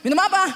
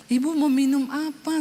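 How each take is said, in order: First: Louder, blunt, hostile ask; curt question. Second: Sweet, gentle offer of a drink; kind offer. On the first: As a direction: bark it like a bitter woman. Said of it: "kalau dia tanya begini". (pertanyaan ketus dan galak) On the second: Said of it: "dalam keadaan sudah pulih". (tawaran ramah dan lembut) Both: Retold or imitated.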